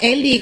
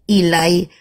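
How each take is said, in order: First: The name is said as 'Eli'. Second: The name is said as 'Ilai'. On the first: The speaker calls it wrong. "bacanya jangan Eli" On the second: The speaker calls it right. "Mestinya bacanya ilai ilai"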